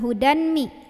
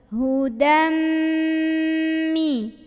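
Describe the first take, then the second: First: A separate n sound is heard before the m. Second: The n merges into a held, nasal m. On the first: The speaker calls it wrong. "bacanya bukan hudan mi" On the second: The speaker calls it right. "dari dal langsung tekan ke mim sambil dengung"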